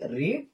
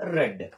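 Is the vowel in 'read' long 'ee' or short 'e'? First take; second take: long ee; short e. First: The vowel is a long 'ee' sound. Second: The vowel is a short 'e' sound. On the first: It is the present form. "స్పెల్లింగ్ మారదు కానీ pronunciation మాత్రమే మారుతుంది" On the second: It is the past form. "స్పెల్లింగ్ మారదు కానీ pronunciation మాత్రమే మారుతుంది"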